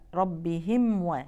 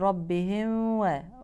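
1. الميم واضحة قبل الواو. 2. الميم مخفية قبل الواو. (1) "لإظهار الميم بوضوح" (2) "فالبعض يقرأها ويقول"

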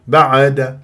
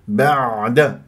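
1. العين ضعيفة وضحلة. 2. العين عميقة ومحبوسة قليلاً. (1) "ولا عايمة" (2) "يجب أن أنزل إلى وسط الحلق"

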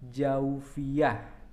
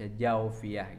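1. Dilafalkan dengan artikulasi tajwid Arab yang cermat. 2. Dilafalkan dengan sederhana, dengan gaya sehari-hari setempat. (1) "mun make tajwid mah" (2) "Tapi teu naon dibaca jaufiyah gitu"

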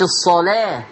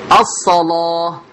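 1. اللام مرققة وخفيفة. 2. اللام مغلظة وثقيلة. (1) "لا مش الصلاة" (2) "اللام ليست مرققة، مغلظة لورش"

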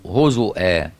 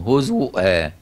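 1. في الكلمة همزة بعد حركة الضمة u. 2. في الكلمة همزة بعد حركة الضمة u.

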